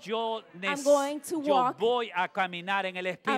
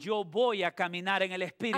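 First: It is said louder and with more force. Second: It is said aloud at a normal loudness. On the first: "Dígaselo más fuerte" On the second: "Dígalo en voz alta conmigo"

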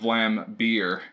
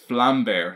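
First: The last syllable sounds like the English word beer. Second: The last syllable sounds like the English word bear. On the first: The speaker calls it wrong. "not Vlambeer, as us Americans like to say" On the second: The speaker calls it right. "it's a little bear, and then there's a flame behind him. So it's Vlambeer"

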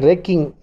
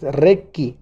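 First: The name ends with an n sound. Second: The name ends without an n sound. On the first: The speaker calls it wrong. "No es como mucha gente pronuncia Requin" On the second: The speaker calls it right. "es Requi, nada más, sin N"

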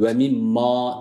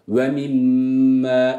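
First: The final vowel is a full open 'a'. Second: The final vowel sounds between 'e' and 'a'. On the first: The speaker calls it wrong. "Ve mimma değil" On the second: The speaker calls it right. "E, a arası bir sesle"

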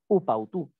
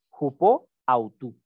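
First: The words are joined into one sound unit. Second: The words are said fully, without contraction. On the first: It is the contracted, enclitic form. "esta palabra se está uniendo a la otra" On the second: It is the original, uncontracted form. "en el original, sin esa contracción"

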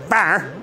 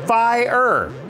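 First: The word is said with one syllable. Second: The word is said with two syllables. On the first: The speaker calls it wrong. "Not fire" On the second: The speaker calls it right. "it's definitely two"

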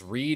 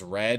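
First: The vowel is long, as in 'seed'. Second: The vowel is short, as in 'bed'. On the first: This is the present tense of the verb. "there's reed and there's red, and they're spelt the same way" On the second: This is the past tense of the verb. "What's past of red?"

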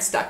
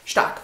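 First: The name is said with English pronunciation. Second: The name is said with German pronunciation. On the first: The speaker calls it wrong. "kein Stark. Wir sind nicht bei Winterfell und nicht in Game of Thrones" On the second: The speaker calls it right. "wahrscheinlich zu Deutsch"

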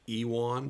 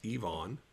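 First: The middle consonant is a W sound. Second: The middle consonant is a V sound. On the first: The speaker calls it wrong. "a lot of folks say Ewan" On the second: The speaker calls it right. "the W is pronounced as a V"

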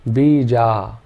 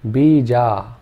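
The two takes are said the same way.

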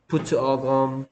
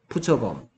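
First: The phrase is said at a slower pace. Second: The phrase is said at a faster pace. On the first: "푸츠 어 검을 점점 빨리 한다 생각해 봐" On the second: "이렇게 들려요. 점점 빨리 하면"

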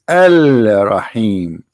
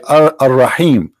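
First: The article's L sound is clearly pronounced. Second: The article's L sound merges into the R. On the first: The speaker calls it right. "but the fact it is Al-Rahim" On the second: The speaker calls it wrong. "this is false, they say Ar-Rahim"

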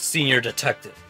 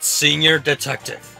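First: It is said at normal speed. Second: It is said slowly.

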